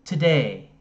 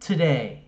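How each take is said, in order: Both takes have the same delivery.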